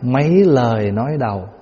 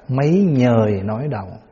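First: The second word begins with an L sound. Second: The second word begins with an N sound. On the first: "thay vì nó là mấy lời nói đầu" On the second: "ngoài Bắc đọc là mấy nhời nói đầu"

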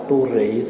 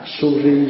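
First: The word begins with a t sound. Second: The word begins with an s sound. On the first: This is the local Vietnamese reading of the sound. "Thì mình âm là tu rị" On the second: This is the original Sanskrit sound. "Tu rị đây là âm là cái tiếng Phạn thôi"

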